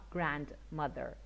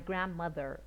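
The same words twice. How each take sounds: First: Every vowel is said full and separately. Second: The unstressed vowels are reduced to schwa. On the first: The speaker calls it wrong. "not grandmother" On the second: The speaker calls it right. "the schwa again"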